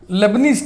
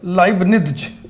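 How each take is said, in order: First: The name begins with a 'lay' sound. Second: The name begins with a 'lie' sound. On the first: This is how it is commonly read. The speaker calls it wrong. "लेबनीज test हम लोग इसको पढ़ते हैं" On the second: This is its proper pronunciation. The speaker calls it right. "हिंदी में इसका उच्चारण होता है लाइबनिज"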